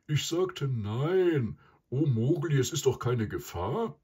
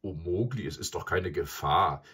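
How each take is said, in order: First: Louder, higher buffalo voice; loud, put-out animal character; grumbling buffalo. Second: Lightly mocking repetition in a natural pitch; understated boyish mockery; mocking echo. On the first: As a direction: grumble emphatically, pitched up. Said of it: "brummte der Büffel". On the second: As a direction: throw the words back with a touch of scorn. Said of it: "gab der Knabe spottend zurück". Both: A narrator's reading.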